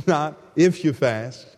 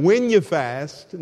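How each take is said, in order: First: Slow "if", set apart; contrastive stress on IF. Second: Slow, deliberate "when"; stress on WHEN. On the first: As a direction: pick out "if" as the wrong word. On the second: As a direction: stretch "when" to underline it. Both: Real, not acted. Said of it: "once again".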